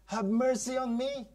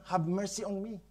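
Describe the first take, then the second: First: Higher, a mild crying plea; pleading cry. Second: Said in the usual way. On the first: Acted. Canaanite mother crying to Jesus, high pleading plea. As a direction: beg for mercy like a desperate mother. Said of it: "cried unto him". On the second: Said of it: "sabi niya".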